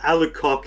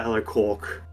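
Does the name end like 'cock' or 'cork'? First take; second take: cock; cork. First: The last syllable is said without an R sound. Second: The last syllable is said with a soft R sound. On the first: The speaker calls it wrong. "Alucock is the obvious one" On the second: The speaker calls it right. "I like pronouncing it with a soft R"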